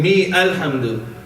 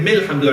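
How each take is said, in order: First: A glottal stop separates the two words. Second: The words run together without a glottal stop. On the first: "Instead of saying Mi Alhamdu" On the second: "I'm going to say Milhamdu. I don't need the Hamza there now"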